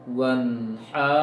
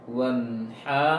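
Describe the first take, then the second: No difference in how they are said.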